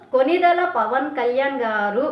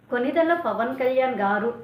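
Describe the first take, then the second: First: Konidela Pawan Kalyan గారు drawn out slowly with mock respect; mock reverent, slow. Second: Said in the usual way. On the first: Repeating the rival's sarcastic praise of the leader, slow and mocking. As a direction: savour each word of Konidela Pawan Kalyan గారు like a sneer. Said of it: "అందులో కూడా వెటకారం ఉంది". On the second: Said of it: "ఎంత బాగుందిరా వినడానికి".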